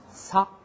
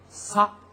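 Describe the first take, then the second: Both takes have the same delivery.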